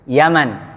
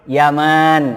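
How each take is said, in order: First: The second vowel is short. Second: The second vowel is long. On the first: It is the name of the country. "nggak ada panjangnya itu" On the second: It is the name of the father. "ada alifnya"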